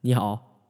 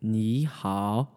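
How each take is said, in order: First: It is said quickly, tones less drawn out. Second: It is said slowly, tones drawn out.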